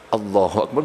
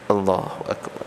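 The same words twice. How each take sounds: First: It is said loudly, projected outward. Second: It is said quietly, just above a murmur. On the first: Other people are meant to hear it. "Bukan telinganya orang ... nggak usah ya" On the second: Only the speaker needs to hear it. "minimal terdengar oleh telinga"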